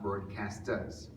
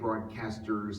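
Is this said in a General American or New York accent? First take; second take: New York; General American. First: It is said in a New York accent. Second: It is said in a neutral General American accent. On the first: The speaker calls it wrong. "not broadcasters, which is how I would say it when I was young" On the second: The speaker calls it right. "broadcasters who say broadcasters"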